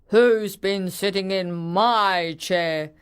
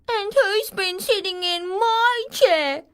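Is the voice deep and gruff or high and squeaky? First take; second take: deep gruff; high squeaky. First: It is said in a deep growling voice. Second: It is said in a high squeaky voice.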